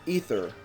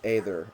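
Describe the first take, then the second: First: The first vowel is an 'ee' sound. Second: The first vowel is an 'ay' sound. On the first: The speaker calls it wrong. "Ike pronounces it Ether" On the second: The speaker calls it right. "it is pronounced Aether, as far as I'm concerned"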